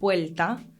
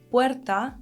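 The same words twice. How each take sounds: First: An l sound comes before the t. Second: An r sound comes before the t. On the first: "might sound like"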